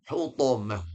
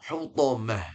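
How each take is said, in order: The two takes are said the same way.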